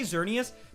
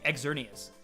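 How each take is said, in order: First: The name begins with a plain Z sound. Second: The name begins with a spoken X sound. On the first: "when you say Xerneas, it's like Z" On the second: "pronounced literally Xerneas. Like you're supposed to pronounce the X"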